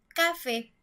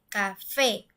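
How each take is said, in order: First: The stress is on the first syllable. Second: The stress is on the last syllable. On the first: The speaker calls it wrong. "nosotros diríamos café" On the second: The speaker calls it right. "la última sílaba es la que se escucha mucho más fuerte"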